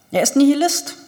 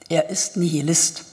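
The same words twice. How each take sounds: First: Nihilist said higher and louder, stressed; emphatic repeat. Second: Said in the usual way. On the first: Acted. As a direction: hammer home the word Nihilist. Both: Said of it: "wiederholte Arkadi".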